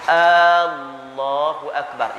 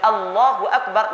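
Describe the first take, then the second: First: The opening vowel is drawn out long. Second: The opening vowel is kept short. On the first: It asks whether God is the greatest. The speaker calls it wrong. "dia memanjangkan hamzah" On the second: It states that God is the greatest. The speaker calls it right. "makna dia Allah Maha Besar"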